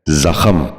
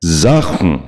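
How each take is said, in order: First: زخم with an extra vowel before the m, "za-kham"; mispronounced زخم. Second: زخم as one syllable, "zakhm"; correct زخم. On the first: Teacher showing viewers a common mistake, زخم said as "zakham". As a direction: say زخم as two syllables, za-KHAM. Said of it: "یہ غلط تلفظ ہے". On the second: Teacher modelling for viewers, زخم said as "zakhm". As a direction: run kh straight into m in زخم. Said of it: "درست تلفظ ہے". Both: Shown as a demonstration.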